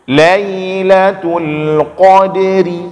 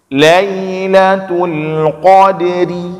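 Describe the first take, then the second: Both takes have the same delivery.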